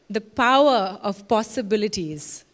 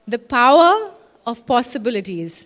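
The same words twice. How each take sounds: First: The phrase is said at normal volume. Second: The phrase is said more loudly.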